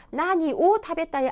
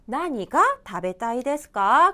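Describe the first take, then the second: First: "나니 오타베타이" with 오 picked out as the slip; stress on 오. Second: "나니가 타베타이 데스까" slowly, 가 picked out; slow model question leaning on 가 in "나니가"; stress on 가. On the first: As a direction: lean on 오 in "나니 오타베타이". ("나니 오타베타이"에서 오를 강조) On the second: ("나니가"의 가를 강조해 천천히) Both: Shown as a demonstration. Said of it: "안 되죠".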